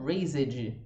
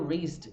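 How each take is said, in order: First: The ending is said as an extra syllable. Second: The word is said as one syllable. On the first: The speaker calls it wrong. "e não raised" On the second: The speaker calls it right. "vai ser falado raised"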